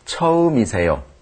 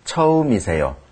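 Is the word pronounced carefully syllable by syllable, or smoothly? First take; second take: smoothly; smoothly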